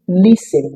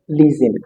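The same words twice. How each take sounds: First: The middle consonant is a voiceless s sound. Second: The middle consonant is a voiced z sound. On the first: The speaker calls it right. "So it is listen" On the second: The speaker calls it wrong. "not listen"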